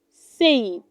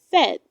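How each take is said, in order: First: Said rhymed with say; said as sayd; wrong pronunciation. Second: Said with a short e, like sed; correct pronunciation. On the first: Teacher showing learners the wrong way: said as sayd. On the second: Teacher giving learners the right way: said as sed. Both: Shown as a demonstration. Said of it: "It is pronounced".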